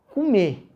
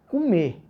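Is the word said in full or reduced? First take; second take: reduced; reduced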